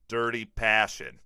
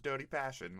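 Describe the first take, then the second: First: It is said in an American accent. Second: It is said in an Australian accent. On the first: "will you say dirty passion in American accent?" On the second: "I have to like warm up my Australian accent"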